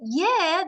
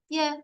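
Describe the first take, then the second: First: The word is said brightly, with energy. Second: The word is said flatly, without energy. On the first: The speaker is keen to go. The speaker calls it right. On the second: The speaker does not really want to go. The speaker calls it wrong.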